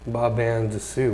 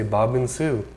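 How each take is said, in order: First: The word 'and' is said fully and clearly. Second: The word 'and' shrinks to a linked 'n' sound. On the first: The speaker calls it wrong. "we don't say the word and" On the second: The speaker calls it right. "We just say Bobbin Sue"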